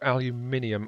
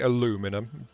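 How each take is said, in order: First: It is said the British way, five syllables. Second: It is said the American way, four syllables.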